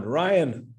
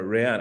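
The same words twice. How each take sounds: First: Said in the usual way. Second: Ryan said as "ree-AHN"; alternative pronunciation. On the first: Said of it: "or Ryan. I think it's Ryan". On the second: Shown as a demonstration. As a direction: say Ryan like "ray-AHN", second syllable open. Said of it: "I think it's Ryan".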